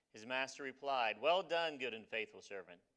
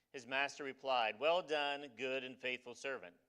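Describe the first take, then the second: No difference in how they are said.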